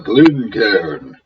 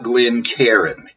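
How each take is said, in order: First: The name has two syllables, ending in one-syllable cairn. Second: The name has three syllables, ending like Karen. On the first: The speaker calls it right. "The second syllable is C A I R N. One syllable, Cairn" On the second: The speaker calls it wrong. "not Glencairn. It is not a couple named Glenn and Karen"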